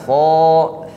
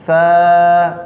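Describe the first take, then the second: First: The letter is said heavy with a raised tongue. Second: The letter is said thin with a relaxed tongue. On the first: The speaker calls it wrong. "jangan fo" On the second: The speaker calls it right. "Fa normal, normal, relax"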